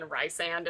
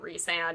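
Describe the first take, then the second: First: The first syllable sounds like 'rice'. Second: The first syllable sounds like 'reese'. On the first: The speaker calls it wrong. "I pronounce his name Rice" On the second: The speaker calls it right. "I know it's supposed to be pronounced that way"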